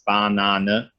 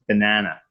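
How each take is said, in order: First: It is said with a German accent. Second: It is said with a North American accent. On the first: "In German it's banana" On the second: "But then in North American it's banana"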